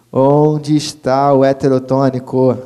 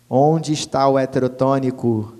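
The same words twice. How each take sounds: First: Louder repeat. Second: Said in the usual way. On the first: Shown as a demonstration.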